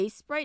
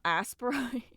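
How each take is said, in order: First: The name begins with an 'ace' sound. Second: The name begins with an 'ass' sound. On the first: "Is it supposed to be Ace Sprite" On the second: "Have I been saying it wrong this whole time?"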